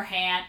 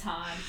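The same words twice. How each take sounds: First: "Han" said as HANN; short A as in "cat" in "Han"; joking mispronunciation. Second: "Han" said as HAHN; AH vowel. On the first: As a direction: say "Han" to rhyme with "man". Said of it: "No, just kidding". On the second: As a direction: say "Han" with an open "ah". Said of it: "Or Han". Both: Shown as a demonstration.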